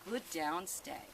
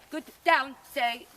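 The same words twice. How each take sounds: First: It is said as warm praise. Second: It is said as a firm command. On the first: The dog is being complimented for staying. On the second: The dog is being ordered to stay.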